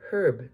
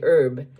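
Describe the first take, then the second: First: The word begins with an audible H sound. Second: The word begins without an H sound. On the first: This is the British pronunciation. "In Britain, ... it's herb. They pronounce the H" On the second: This is the usual American pronunciation. "In America, most of us say herb"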